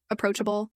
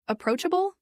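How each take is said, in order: First: Said in the usual way. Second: Approachable spat back high with a sharp rise; spat word. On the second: A narrator's reading. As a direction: spit approachable back at him, pitched well up. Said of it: "I practically spat the word".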